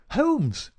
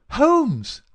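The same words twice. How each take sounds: First: High, louder calling out of a name; crying out. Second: Much louder, high-pitched insistent call; insistent rousing shout. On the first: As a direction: call out sharply to rouse him. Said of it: "he cried". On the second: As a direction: shout to wake a sleeper. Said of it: "in the insistent tone of one who awakens". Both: A narrator's reading.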